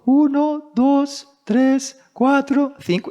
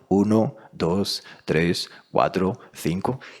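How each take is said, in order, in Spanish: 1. Una voz fina, de niño, cuenta los números. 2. Una voz llena, de locutor, cuenta los números. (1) "no tiene voz para ello" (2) "más o menos era así"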